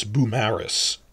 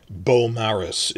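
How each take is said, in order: First: "Beaumaris" as boo-MA-ris, stress on MA; corrected pronunciation. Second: "Beaumaris" begun with BOH, as in French; French-style reading. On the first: Teacher correcting the French reading, second-syllable stress. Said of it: "'cause the stress is on the second syllable". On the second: Teacher showing the mistaken French reading, French-style pronunciation. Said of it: "how you'd say that in French". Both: Shown as a demonstration.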